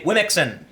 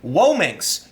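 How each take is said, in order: First: The word ends with an 'on' sound. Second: The word ends with an 'inks' sound. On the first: This is how people read the spelling. "people look at this and will say Wimixon" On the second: This is the pronunciation the word's users intend. "I've heard some pronounce it Wominx"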